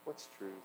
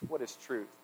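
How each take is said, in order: First: It is said in a depressed tone. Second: It is said in a sarcastic tone.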